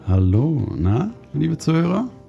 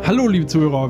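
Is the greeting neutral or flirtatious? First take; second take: flirtatious; neutral. First: It is said in a flirtatious, suggestive tone. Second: It is said in a neutral presenter tone.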